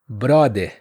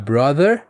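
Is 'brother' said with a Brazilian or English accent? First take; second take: Brazilian; English. First: It is said with a Brazilian accent. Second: It is said with an English accent. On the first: "com o sotaque brasileiro" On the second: "Em vez de falar brother"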